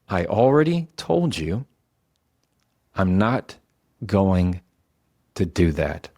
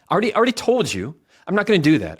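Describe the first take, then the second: First: It sounds slow, calm and in control. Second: It sounds rushed and grasping for control.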